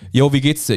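The question sounds offhand and casual.

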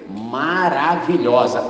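The word is broken into separate syllables.

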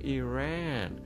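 It is said with the Persian pronunciation. "بگو ایران ... مثل ما بگه ایران"

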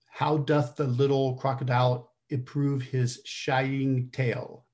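It sounds slightly nasal, like a mild cold. "Just give it a little bit of a head cold"

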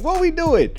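It is said in a light, joking tone. The situation is absurd and laughable. "I had the thought of using the question as a joke"

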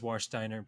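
The name is pronounced with English sounds. "the English pronunciation is Warsteiner"

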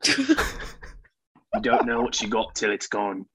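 It is read in a put-on Australian accent. "that's definitely Australian"

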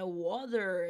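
It has an American accent with final R.

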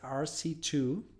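The letters and number are spoken in English. "in English"

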